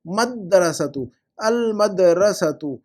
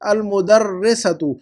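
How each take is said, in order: First: मदरसतु drawn out syllable by syllable, very slow; slow teacher model of अल मदरसतु; slow correct pronunciation. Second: अल मुदर्रिसतु read back slowly as the student's wrong word; slow mock of the wrong word; mistaken form quoted. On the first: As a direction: spell out मदरसतु slowly for the class. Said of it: "ये female teacher थोड़ी है". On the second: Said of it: "आपने क्या लिखा हुआ है". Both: Shown as a demonstration.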